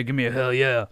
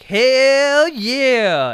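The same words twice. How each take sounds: First: Lightly imitated wrestler's catchphrase; crowd call. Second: High, loud, drawn-out mock yell; mimicked cheer. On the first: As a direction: call for a crowd response, half-hearted. Acting Stone Cold's call to crowd. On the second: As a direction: holler it back like an overeager lone fan. Mimics Byron's yell back to Austin.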